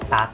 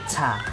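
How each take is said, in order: First: The t is said without a puff of air. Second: The t is said with a puff of air. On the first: The speaker calls it right. "It stops there" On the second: The speaker calls it wrong. "Don't say ta. Don't make it aspirated"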